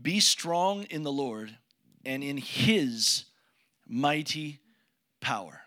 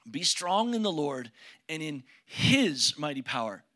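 First: "Be strong in the Lord and in his mighty power" read slowly, word by word; slow scripture reading. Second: Said in the usual way. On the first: Shown as a demonstration. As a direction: weigh each word of the verse. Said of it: "Final word, verse ten". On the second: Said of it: "Did you hear that?".

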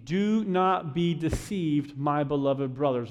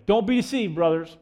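First: Slow, measured verse reading; solemn and unhurried, falling at the end; scripture reading. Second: Urgent plain-spoken version of the verse; punchy paraphrase. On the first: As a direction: read it out deliberately, word by word. Reads the verse, then paraphrases it. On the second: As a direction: toss it out as a brisk everyday warning. Punchy paraphrase of verse just read. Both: Real, not acted.

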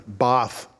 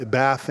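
First: Bath with a long broad "ah", like "bahth"; British pronunciation. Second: Said in the usual way. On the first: Shown as a demonstration. Preacher corrects himself on the English town's name, Bath said as "bahth". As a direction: say "Bath" the British way, open back vowel. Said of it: "Bath, England, Bath".

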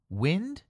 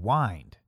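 First: "Wind" with a short i, like win plus d, rising; "Wind" short i as in breeze, rising tune; wind as moving air. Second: "wind" with a long i, rhymes with kind, falling; wind as in turning. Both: Shown as a demonstration. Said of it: "Wind and wind".

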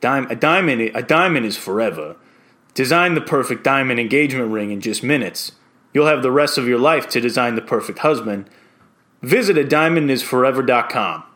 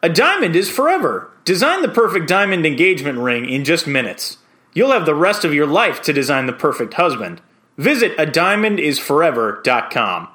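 First: Quirky character with a New York accent; New York Tony. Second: Standard commercial voice-over read; clear, measured ad read with a lift on key words. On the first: Voice-over hopeful reading the diamond ad as a quirky character, New York accent. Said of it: "New York Tony". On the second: Voice-over hopeful reading a diamond ad for his audition, standard voice. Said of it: "do it in just a standard, standard voice". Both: Shown as a demonstration.

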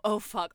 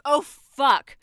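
First: Said in the usual way. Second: High, loud burst of panic; panicked shout. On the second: Acted. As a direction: shout in sudden horror. Realisation that dawns, then bursts.

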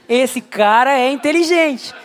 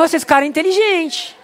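First: Slower, savouring inteligente; mock-admiring listener, said slowly; slow impressed repeat. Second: Said in the usual way. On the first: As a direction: drag out inteligente as if in awe. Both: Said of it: "Ele parece inteligente só pelo tom".

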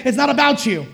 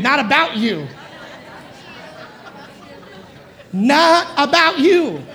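First: Said in the usual way. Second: Sassy, drawn-out and laughing; with attitude. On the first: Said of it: "Look at two or three people just around you and say". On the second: Shown as a demonstration. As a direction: give it some attitude. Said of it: "say it with attitude".

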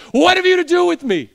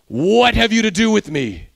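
First: Very high, loud shriek; demon's loud cry. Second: A demon crying out to Jesus; loud cry. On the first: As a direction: scream it out as a demon confronting Jesus. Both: Acted. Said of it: "crying out with a loud voice".

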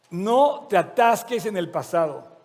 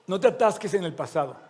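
First: Slower and louder, every word leaned on; preacher repeating the warning with slow, firm weight; slow emphatic repeat. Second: Said in the usual way. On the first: Shown as a demonstration. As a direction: drive it home slowly so the congregation hears it.

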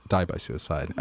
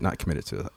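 First: Quiet, careful wording of died by suicide; soft correction to the gentler term; softened correction. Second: Softened correction. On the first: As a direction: set the phrase down gently and softer. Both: Real, not acted.

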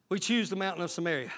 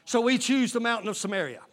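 First: Soft lower repeat. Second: Said in the usual way. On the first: Real, not acted. Preacher echoes his own line to the church, dropped low and soft. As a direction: drop low and soft, quicker. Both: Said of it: "repeated much softer".

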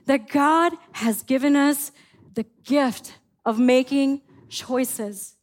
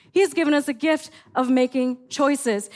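First: Every word slowed and weighted; slow emphatic. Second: Said in the usual way. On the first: Shown as a demonstration. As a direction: lay the point down slowly, word by word. Sermon point, said slowly then repeated.

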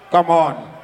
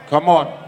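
No difference in how they are said.

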